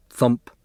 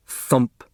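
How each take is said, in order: Both takes have the same delivery.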